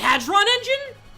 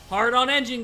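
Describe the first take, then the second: First: The first word sounds like one word, 'hadron'. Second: The first word sounds like two words, 'hard on'. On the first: The speaker calls it right. "is it called Hadron engine?" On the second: The speaker calls it wrong. "I thought it was called Hard on engine"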